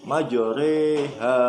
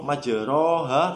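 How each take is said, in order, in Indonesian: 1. Vokal setelah r adalah bunyi 'e'. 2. Vokal setelah r adalah 'a' yang jelas. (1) "tapi dibaca imalah" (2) "tidak lagi dibaca ro majroha, tidak"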